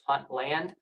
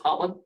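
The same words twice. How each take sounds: First: The syllables are said clearly and separately. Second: The syllables are rolled together into one.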